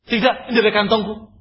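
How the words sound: It is said in an angry tone. "dengan irama lain. Dan ini dengan irama marah kepadanya"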